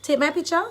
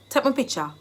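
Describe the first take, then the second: First: Said in the usual way. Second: "picture" as Jamaican "pitcha", falling; Jamaican Patois. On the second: Shown as a demonstration. Teacher translating a photo request for learners, in Jamaican Patois. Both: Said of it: "I've given you the Jamaican dialect".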